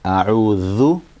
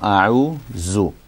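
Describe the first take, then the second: First: The middle consonant is a soft 'th' sound. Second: The middle consonant is a 'z' sound. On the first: The speaker calls it right. "it's a Dha, it's a Dhal" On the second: The speaker calls it wrong. "it's not A'uzu"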